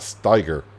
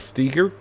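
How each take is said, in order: First: The first vowel sounds like the letter I. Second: The first vowel sounds like the letter E. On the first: The speaker calls it wrong. "not Steiger" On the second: The speaker calls it right. "I would pronounce it Steger"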